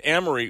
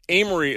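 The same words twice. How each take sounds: First: "Amory" with a short a, as in "am"; outsider's pronunciation of Amory. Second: "Amory" with a long a, as in "aim"; local pronunciation of Amory. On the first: FEMA man giving directions to a resident, outsider's pronunciation of Amory. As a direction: begin "Amory" like the word "am". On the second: FEMA man conceding to the resident's way, local pronunciation of Amory. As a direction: begin "Amory" like the word "aim". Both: Retold or imitated. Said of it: "as you call it".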